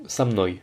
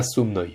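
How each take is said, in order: First: "samnoi" with an a in the first syllable; "samnoi", the written o sounded as a; o pronounced as a. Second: "somnoi" with a rounded o in the first syllable; "somnoi", the written o sounded as written; o pronounced as o. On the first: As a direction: say "samnoi" as one word, opening on sa. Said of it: "se prononce comme un a". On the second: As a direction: say "somnoi" opening on so. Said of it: "et pas somnoi". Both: Shown as a demonstration.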